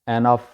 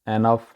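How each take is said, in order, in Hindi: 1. पहला स्वर 'eh' जैसा सुनाई देता है। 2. पहला स्वर 'eh' जैसा सुनाई देता है।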